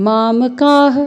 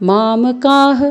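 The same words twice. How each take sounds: The two takes are said the same way.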